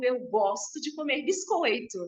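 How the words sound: It is said in a mineiro accent.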